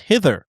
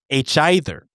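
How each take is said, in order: First: It is said as one ordinary word. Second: It is said as the letter H, then 'either'.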